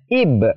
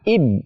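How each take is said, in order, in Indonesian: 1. Huruf b akhir dilepas dengan pantulan. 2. Huruf b akhir ditahan dan ditekan. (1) "maka cara bacanya ib" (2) "ditahan, ib, ib, itu tidak boleh"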